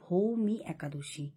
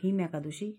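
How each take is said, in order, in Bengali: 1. প্রথম শব্দটি দুটি দল, Bhoumi। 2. প্রথম শব্দটি একটি দল, Bhim। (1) "ওটার কথা হচ্ছে ভৌমি একাদশী" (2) "তুমি প্রথমে উচ্চারণটা ভুল করেছো"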